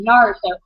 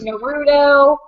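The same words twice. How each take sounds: First: The name is said with an American accent. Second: The name is said with a Japanese-style accent. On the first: "I say it very Americanized" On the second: "other people say like"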